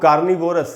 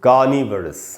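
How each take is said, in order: First: The vowel after 'niv' is a full 'o'. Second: The vowel after 'niv' is a weak 'uh'. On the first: The speaker calls it wrong. "इसको अक्सर हम लोग कार्निवोरस ऐसे करके पढ़ लेते हैं" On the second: The speaker calls it right. "इसको हम पढ़ेंगे कार्निवरस"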